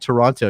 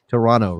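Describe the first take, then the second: First: The second t sound is clearly pronounced. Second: The second t sound is dropped. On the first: The speaker calls it wrong. "You can't say Toronto" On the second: The speaker calls it right. "You have to say Toronto, right? No T in the second half"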